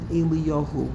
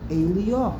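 First: The name ends with a final -hu syllable. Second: The name ends on -yah with no -hu. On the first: The speaker calls it wrong. "It's not that the Vav is missing and we pronounce it Eliyahu. We don't do that" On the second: The speaker calls it right. "We pronounce it Eliyah"

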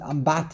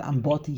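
First: The middle syllable has an 'a' vowel. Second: The middle syllable has an 'o' vowel. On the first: This is the usual way people say it. "They always pronounce it Ambati" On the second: This is how the text here has it. "not Amboti"

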